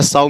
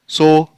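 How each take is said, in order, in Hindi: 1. स्वर 'ow' जैसा सुनाई देता है। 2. स्वर 'oh' जैसा सुनाई देता है। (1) "साउ मीन्स मादा सुअर" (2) "सो मीन्स बीज बोना"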